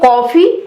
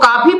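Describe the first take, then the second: First: The first vowel is a rounded 'o' sound. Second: The first vowel is an open 'aa' sound. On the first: "यानी ओ का sound आता है।" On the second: "Hindi में हम इसको काफी पढ़ रहे हैं"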